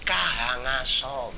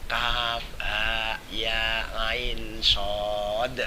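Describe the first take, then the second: First: The letters are run together into one word. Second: Each letter name is said separately and fully. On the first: The speaker calls it wrong. "le maca ki kahangaso" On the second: The speaker calls it right. "bacaannya yang benar"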